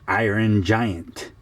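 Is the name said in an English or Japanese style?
English. It is said in a plain English way. "we say the Iron Giant"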